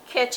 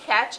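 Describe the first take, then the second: First: The vowel sounds like 'e', as in ketch. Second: The vowel sounds like 'a', as in cat. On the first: "Catch in Jamaican patois" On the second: "catch in English"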